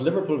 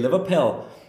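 First: It is said in an Irish accent. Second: It is said in a Liverpool accent.

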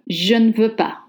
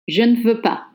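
First: The e sounds are softened and nearly dropped. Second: The e sounds are softened and nearly dropped.

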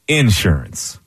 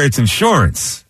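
First: The stress is on the first syllable. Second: The stress is on the second syllable. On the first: It is the Southern way of saying it. "which is the way they do it in the South" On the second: It is the local way of saying it.

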